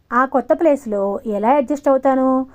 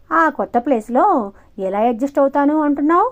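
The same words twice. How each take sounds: First: అడ్జస్ట్ leaned on in a whiny, insistent plea; insistent complaint. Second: Higher, mock-whiny repeat with అంటున్నావు rising; mocking echo. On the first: Pujitha complains to Sudhir, insistent and whiny. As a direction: complain it as her real worry. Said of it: "దబాయిస్తూ గట్టిగా అడిగింది". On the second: Sudhir parrots Pujitha's complaint mockingly. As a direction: parrot her complaint to ridicule it. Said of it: "వెటకారంగా అడిగాడు Sudheer". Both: A narrator's reading.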